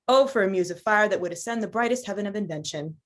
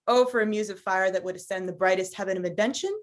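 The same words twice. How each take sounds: First: The voice falls at the end. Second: The voice rises at the end.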